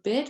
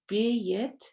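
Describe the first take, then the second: First: The vowel is one short sound. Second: The vowel breaks into two parts.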